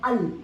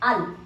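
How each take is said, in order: First: The word is cut short to one syllable. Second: The word is cut short to one syllable.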